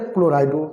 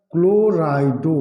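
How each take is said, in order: First: Said in the usual way. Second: क्लोराइडो stretched slowly, syllable by syllable; drawn-out term. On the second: Shown as a demonstration. Teacher answering how the ligand is named, drawn out. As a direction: say क्लोराइडो slowly, holding each part. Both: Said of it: "क्या बोला जाएगा?".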